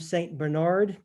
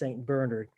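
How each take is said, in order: First: Bernard is said the common way, like the dog. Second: Bernard is said the other way, for the saint. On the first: It names the dog breed. The speaker calls it wrong. "mostly everybody would call him Saint Bernard, but as we say, that is the dog" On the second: It names the saint. The speaker calls it right. "If you want the saint, the person, it's Saint Bernard"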